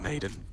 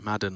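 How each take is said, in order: First: The first vowel sounds like in 'made'. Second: The first vowel sounds like in 'mad'. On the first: The speaker calls it wrong. "I keep calling him Maiden" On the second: The speaker calls it right. "Madden, like the N F L"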